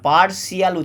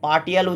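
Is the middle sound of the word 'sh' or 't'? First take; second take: sh; t. First: The middle sound is a soft 'sh'. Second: The middle sound is a hard 't'. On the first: The speaker calls it right. "পার্সিয়াল উচ্চারণ হবে" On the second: The speaker calls it wrong. "এটা পার্টিয়াল উচ্চারণ হবে না"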